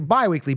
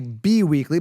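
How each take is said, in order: First: The first syllable sounds like 'by'. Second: The first syllable sounds like 'bee'. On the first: The speaker calls it right. "It's by as in bi-weekly" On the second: The speaker calls it wrong. "You don't say bi-weekly"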